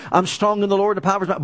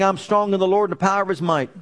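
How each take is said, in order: First: Fast repeat. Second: Said in the usual way. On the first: Shown as a demonstration. Preacher repeats the confession for the congregation, fast. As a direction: rattle it off fast, same words again. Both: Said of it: "we should be going around saying".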